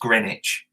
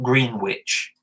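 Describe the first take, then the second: First: It is said without the w sound. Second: It is said as spelled, with the w. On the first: "but it's pronounced Greenwich" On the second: "is spelt Greenwich"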